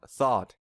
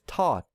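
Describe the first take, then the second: First: The word begins with a TH sound. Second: The word begins with a T sound. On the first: The speaker calls it right. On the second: The speaker calls it wrong.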